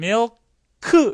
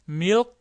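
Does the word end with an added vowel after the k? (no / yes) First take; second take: yes; no. First: An extra vowel follows the final k sound. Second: The word ends on the k without a vowel. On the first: The speaker calls it wrong. "영어는 milk 이렇게 안 하죠. 으라는 모음이 없습니다" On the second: The speaker calls it right. "그래서 milk 하고 이렇게 끝나야 돼요"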